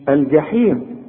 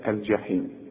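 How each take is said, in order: First: The first consonant is a hard g sound. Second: The first consonant is a soft j sound. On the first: The speaker calls it wrong. "ما تقولش الجحيم" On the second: The speaker calls it right. "كل جيم بقى في القرآن لازم تعطش"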